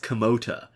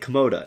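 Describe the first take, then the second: First: The middle consonant is a T sound. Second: The middle consonant is a D sound. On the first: This is the intended form of the word. The speaker calls it right. "what we're trying to say is Komota with a T" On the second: This is how other people hear and repeat it. The speaker calls it wrong. "they say Komoda and they use a D"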